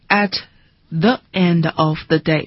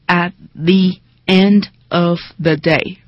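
First: 'The' is said with a short weak vowel. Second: 'The' is said with a long 'ee' vowel. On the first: The speaker calls it wrong. "明明是" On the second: The speaker calls it right. "在任何的元音前面 the 会读成 the"

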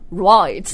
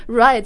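First: The vowel is a broad Australian-style 'oy' sound. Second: The vowel is a plain standard 'eye' sound. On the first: "就 right" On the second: "right 就"

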